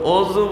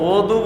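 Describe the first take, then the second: First: The middle consonant is a z-like sound. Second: The middle consonant is a d-like sound. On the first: This is the local form people use. The speaker calls it wrong. "আমাদের দেশে কি উচ্চারণ করে?" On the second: This is the original Arabic form. The speaker calls it right. "অদু শব্দটা হলো শুদ্ধ উচ্চারণ"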